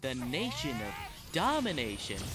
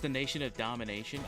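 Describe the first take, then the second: First: It is said in an imitated, distinctive pronunciation. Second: It is said in a plain, ordinary pronunciation. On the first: The speaker calls it right. "Arena Flowers' pronunciation" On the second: The speaker calls it wrong. "we're pronouncing that wrong"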